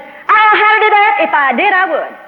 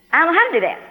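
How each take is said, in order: First: Loud, high-pitched exasperated outburst; mad. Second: Higher-pitched, baffled admission; puzzled. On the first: Woman loses patience with a silent God, angry. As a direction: yell it in frustration at getting no answer. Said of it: "finally, I got mad". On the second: Woman tells God she is at a loss, puzzled. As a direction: admit you are at a loss. Puzzled reply before getting mad. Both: Retold or imitated.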